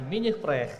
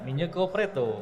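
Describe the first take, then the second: First: The name is said with a French accent. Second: The name is said with a Japanese accent. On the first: "orang Prancis menyebutkan" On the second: "Orang Jepang menyebutkan"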